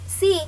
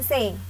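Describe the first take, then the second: First: The vowel is a long ee sound. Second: The vowel is an open eh sound. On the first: This is the English reading of the word. The speaker calls it right. "Bacanya itu C" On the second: This is how the letters are read in Indonesian. The speaker calls it wrong. "bukan C"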